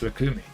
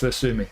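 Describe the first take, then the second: First: The middle consonant is a K sound. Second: The middle consonant is an S sound. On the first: The speaker calls it right. "Or do I pronounce the C as a C? In which case it's Lukumi" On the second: The speaker calls it wrong. "do I pronounce the C as an S? Because then it's Lusumi"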